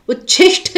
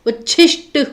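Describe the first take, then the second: First: उच्छिष्ट ending in "shth"; aspirated ending. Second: उच्छिष्ट ending in plain "sht"; unaspirated ending. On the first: Teacher showing the misspelling, उच्छिष्ट with final ठ. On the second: Teacher correcting students, उच्छिष्ट with final plain ट. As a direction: end उच्छिष्ट on a hard ट. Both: Shown as a demonstration. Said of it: "उच्छिष्ट होता है, ट".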